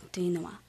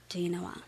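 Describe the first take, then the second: No difference in how they are said.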